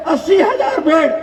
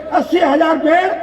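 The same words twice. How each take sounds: The two takes are said the same way.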